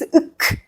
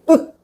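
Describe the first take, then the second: First: The final k sound is audibly released. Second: The final k sound is held, unreleased. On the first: The speaker calls it wrong. "please don't release uk like this" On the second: The speaker calls it right. "Hold your tongue"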